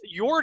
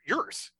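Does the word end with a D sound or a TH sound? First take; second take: D; TH. First: The word ends with a D sound. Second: The word ends with a TH sound. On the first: The speaker calls it wrong. "Yord is how most people, including Rue Klein, who owns Ravenwood, that's how she's been pronouncing it" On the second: The speaker calls it right. "That's got more of a TH sound. And there are umlauts over the O. So it's Yurth"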